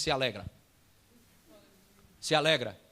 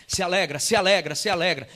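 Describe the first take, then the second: First: Said in the usual way. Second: Loud, repeated command; strong insistence. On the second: Retold or imitated. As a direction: press it home firmly, beat after beat. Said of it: "muito forte no meu coração". (ordem forte e insistente)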